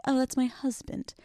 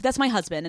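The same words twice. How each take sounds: First: Higher, softer, dreamy gush; proud new wife. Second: Said in the usual way. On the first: Pretend. Imagining introducing Matt after the wedding, dreamy and gushing. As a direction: savor the word husband like a proud bride. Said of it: "It's gonna be crazy when I'm like". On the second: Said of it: "I'm like".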